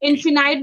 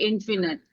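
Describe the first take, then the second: First: The last syllable rhymes with 'bite'. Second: The last syllable rhymes with 'bit'. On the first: Some other people say it this way. "इन्फिनाइट भी कुछ लोग बोलते हैं" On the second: This is the speaker's own way of saying it. "According to my pronunciation आई से इन्फिनिट"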